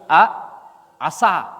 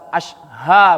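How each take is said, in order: First: The middle consonant is a plain 's' sound. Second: The middle consonant is a 'sh' sound. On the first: The speaker calls it wrong. "tetapi a asa" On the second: The speaker calls it right. "bukan asha mereka baca"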